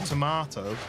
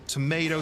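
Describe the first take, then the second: First: It is said in an English accent. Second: It is said in an American accent. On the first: "English version" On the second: "the American"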